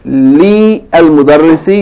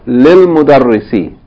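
First: The 'a' of 'al' is pronounced separately. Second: The 'a' of 'al' is dropped and merged. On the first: The speaker calls it wrong. "you don't say" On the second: The speaker calls it right. "You say what?"

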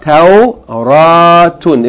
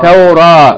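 First: The word ends with a full tun ending. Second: The word ends with a soft h sound. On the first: The reader continues without stopping on the word. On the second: The reader stops on this word.

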